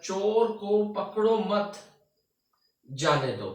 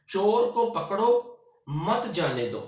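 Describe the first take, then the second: First: Slow, higher "पकड़ो मत", long break, then "जाने दो"; pause after मत. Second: Slow, higher "चोर को पकड़ो", break, then "मत जाने दो"; pause after पकड़ो. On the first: Teacher moving the comma to flip the meaning, pause after "मत". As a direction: join "मत" to "पकड़ो", stop, drop on "जाने दो". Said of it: "सिर्फ अलामत चेंज हुई है". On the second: Teacher showing the thief must be caught, pause after "पकड़ो". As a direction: stop briefly after "पकड़ो", keeping "मत" with "जाने दो". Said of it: "इस अलामत में हम थोड़ा सा रुके हैं". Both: Shown as a demonstration.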